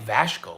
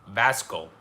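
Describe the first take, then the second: First: The name is said with an sh sound. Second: The name is said with a plain s sound.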